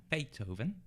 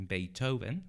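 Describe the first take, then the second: Both takes have the same delivery.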